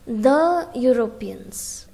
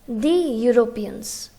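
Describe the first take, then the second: First: 'The' is said as 'thuh'. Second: 'The' is said as 'thee'. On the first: The speaker calls it right. "It is a consonant sound here" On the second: The speaker calls it wrong. "Here you shouldn't say the Europeans"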